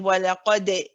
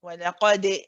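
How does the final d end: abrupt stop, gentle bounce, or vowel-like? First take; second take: vowel-like; vowel-like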